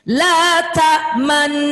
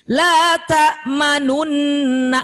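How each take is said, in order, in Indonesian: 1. 'nu' tidak bersuara, hanya bibir yang membulat. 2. Suku kata 'nu' di tengah bersuara penuh. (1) "tapi ketika ada domahnya monyong. La ta manna, gitu ya" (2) "nggak bersuara gitu. La ta manunna, nggak gitu"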